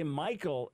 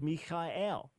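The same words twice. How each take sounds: First: The name is said with English pronunciation. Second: The name is said with Hebrew pronunciation. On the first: "Just like we say Michael in English" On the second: "instead of"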